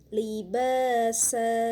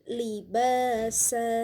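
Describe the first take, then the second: No difference in how they are said.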